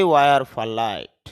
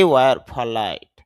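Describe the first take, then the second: No difference in how they are said.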